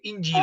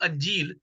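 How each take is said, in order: First: The first vowel is an 'i' sound. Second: The first vowel is an 'a' sound. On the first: The speaker calls it right. "ये इंजील है, अलफ के नीचे ज़ेर है" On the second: The speaker calls it wrong. "बाज़ औक़ात अक्सर इसको कहते हैं लोग अंजील, ये अंजील नहीं है"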